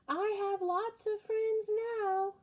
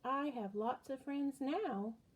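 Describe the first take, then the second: First: It is said very loudly. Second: It is said at a normal, quieter volume.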